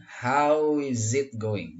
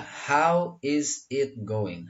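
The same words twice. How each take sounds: First: Slow "How is it going" as "how-iz-it going"; three words joined. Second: Said in the usual way. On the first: Shown as a demonstration. Teacher models the question, three words joined. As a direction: glide through "How is it" in one piece. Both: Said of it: "Jadi yang tiga ini disatukan".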